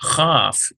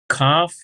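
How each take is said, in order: First: It starts with a soft, breathy K sound. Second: It starts with a hard K sound. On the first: "sort of a softened K" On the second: "Kaf equals K sound"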